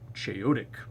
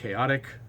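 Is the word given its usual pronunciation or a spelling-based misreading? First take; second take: misreading; usual. First: The word is sounded out from its spelling. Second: The word has its usual standard pronunciation. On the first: The speaker calls it wrong. "I read it as chaotic" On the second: The speaker calls it right. "the word chaotic was pronounced chaotic"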